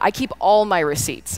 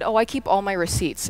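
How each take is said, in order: First: It is said with strong, insistent emphasis. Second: It is said in a plain, casual way.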